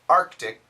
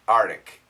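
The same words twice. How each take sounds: First: The K sound after the R is kept. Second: The K sound after the R is dropped. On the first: The speaker calls it right. "The actual pronunciation ... keep the K sound" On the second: The speaker calls it wrong. "A lot of Americans say Arctic, Arctic. And they spell it A R T I C. That's wrong"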